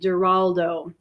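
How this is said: The name is said the English way. "she pronounced his name with a G, That's the English pronunciation"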